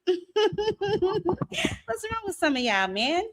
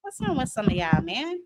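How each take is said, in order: First: Slow, high, laughing through the words; repeating the question while cracking up. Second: Said in the usual way. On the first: Real, not acted.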